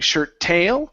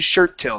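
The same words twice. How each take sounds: First: The second word is stressed and pushed upward. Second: The first word is stressed, pitch falls after. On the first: The speaker calls it wrong. "emphasize the last word, saying shirt tail, and really pushing on that word upward" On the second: The speaker calls it right. "up on shirt, down on tail"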